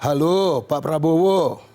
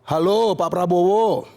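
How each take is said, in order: First: Lower, hesitant phone greeting as Jokowi; lightly voiced Jokowi, a touch nervous. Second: Plain confident phone greeting; hint of Jokowi on the phone; lightly voiced Jokowi. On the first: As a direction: greet him nervously, like a tense first call. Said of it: "Pak Jokowi ... nelpon gitu". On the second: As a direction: greet him casually, no nerves. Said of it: "Pak Jokowi nelpon Pak Prabowo".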